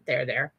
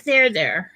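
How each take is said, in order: First: Lower, gently soothing "There, there". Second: Louder, firmer pat-on-the-back "There, there"; "There, there" said out loud like a brisk pat on the back; hearty mock consoling; comforting. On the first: Retold or imitated. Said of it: "I think he actually said that". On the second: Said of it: "he's like".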